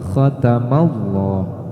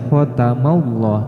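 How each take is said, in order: First: The first sound is rough, like clearing the throat. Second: The first sound is plain, without throat friction. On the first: The speaker calls it right. "seolah-olah kita mau seperti mendahak" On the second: The speaker calls it wrong. "jangan dibaca"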